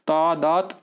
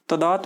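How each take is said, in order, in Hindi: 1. पहला स्वर लंबा है। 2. पहला स्वर छोटा है। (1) "ता में बड़े आ की मात्रा आएगी" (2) "तदात में नहीं नहीं होता"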